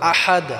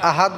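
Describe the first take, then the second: First: The h is pressed strongly from the throat. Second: The h is said lightly, without throat pressure. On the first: The speaker calls it right. "হাটাকে আমরা গলায় চাপ দিয়ে উচ্চারণ করব" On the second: The speaker calls it wrong. "আহাদ বললে হবে না"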